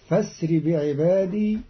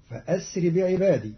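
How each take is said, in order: First: فاسر joined as "fasri", no glottal stop; Qalun reading. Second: Said in the usual way. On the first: Shown as a demonstration. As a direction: drop the hamza in فاسر. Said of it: "وصل بدل الهمزة المحققة". (فاسر بهمزة وصل) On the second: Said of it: "قرأ قالون كلمة فأسر بهمز".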